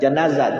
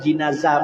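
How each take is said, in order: First: The first syllable has the vowel a. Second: The first syllable has the vowel i. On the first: It names the body lying on the bier. "bukan jenazah" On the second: It names the bier itself. "jenazah baik berarti adalah nama keranda"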